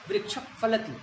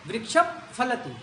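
No difference in how they are said.

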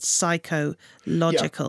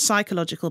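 First: The word is split, stressing the 'logical' part. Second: The word is said normally as one unit. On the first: It means the mind has its own kind of logic. The speaker calls it right. "but psychological" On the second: It means relating to the mind. The speaker calls it wrong. "Not psychological"

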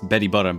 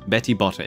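First: It is said in an Australian accent. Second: It is said in a British accent. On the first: "in my like natural Australian accent, it's Betty Botter" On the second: "It sounds British"

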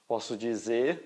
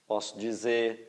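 Both takes have the same delivery.

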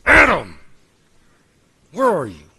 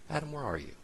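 First: It is said in a harsh, stern voice. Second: It is said in a soft, calling voice. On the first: God is confronting Adam in anger. "there are those, by the way, who spend their entire Christian life thinking God said" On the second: God is inviting Adam to show himself. "more calling out for Adam to take a moment, take stock, and show himself"

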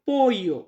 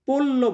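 First: The middle consonant is a Y sound. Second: The middle consonant is a clear L sound. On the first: The speaker calls it right. "স্পেনে বলা হয় পোইও" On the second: The speaker calls it wrong. "পোল্লো বলবেন না"

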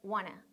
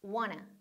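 First: The words are reduced to a quick wanna. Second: The words are reduced to a quick wanna.

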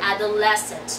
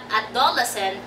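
First: The stress is on the third syllable. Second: The stress is not on the third syllable. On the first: The speaker calls it right. "Stress on the third syllable" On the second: The speaker calls it wrong. "Hindi siya dapat adolescent"

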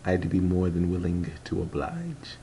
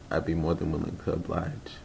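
First: Each word is pronounced carefully and distinctly. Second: The words are run together, less carefully pronounced. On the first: The speaker calls it right. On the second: The speaker calls it wrong.

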